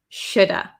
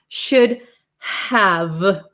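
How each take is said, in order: First: The H and V are dropped, ending in 'uh'. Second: Both words are fully pronounced, with H and V. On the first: "The V kind of becomes silent" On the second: "those consonants need a lot of power"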